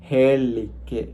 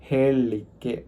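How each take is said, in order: No difference in how they are said.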